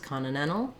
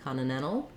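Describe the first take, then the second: The two takes are said the same way.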